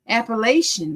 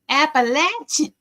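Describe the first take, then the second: First: It is said in a Missouri accent. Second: It is said in a southern accent.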